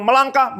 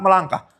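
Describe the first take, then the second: First: "Melangkah" diucapkan tinggi seperti perintah; perintah Tuhan. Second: Said in the usual way. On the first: Retold or imitated. ("Melangkah" sebagai perintah, nada tinggi) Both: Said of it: "Kalau Tuhan bilang".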